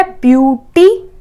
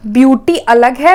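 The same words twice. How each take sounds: First: ब्यूटी drawn out slowly, each syllable apart; syllables split slowly. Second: Said in the usual way. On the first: Shown as a demonstration. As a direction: stretch ब्यूटी out as ब्यू-टी, slow. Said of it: "आपने ब्यू बोला, फिर टी बोला". (ब्यूटी को धीरे-धीरे, हर syllable अलग बोलें) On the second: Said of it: "आपने ब्यू बोला".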